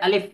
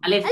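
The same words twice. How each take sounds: No difference in how they are said.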